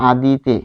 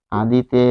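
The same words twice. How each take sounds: The two takes are said the same way.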